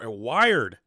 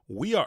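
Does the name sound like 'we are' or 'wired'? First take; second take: wired; we are. First: The name sounds like the word 'wired'. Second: The name sounds like the words 'we are'. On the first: The speaker calls it right. "last name is pronounced like wired" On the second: The speaker calls it wrong. "I said we are"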